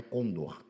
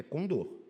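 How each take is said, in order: First: Condor stressed on the first syllable CON; wrong stress. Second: Condor stressed on the final syllable DOR; correct stress. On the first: Teacher quoting the mistaken form, first-syllable stress. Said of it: "não é condor". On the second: Teacher insisting the word is oxytone, final stress. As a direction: put the weight of condor on DOR. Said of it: "É oxítona, não é condor". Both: Shown as a demonstration.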